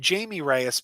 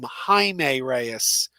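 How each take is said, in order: First: The first name begins with a J sound. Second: The first name begins with an H sound. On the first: This is the original pronunciation used when the character was introduced. "I still tend to call him Jamie Reyes" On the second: This is the newer pronunciation used in other media. "now they seem to call him Jaime Reyes"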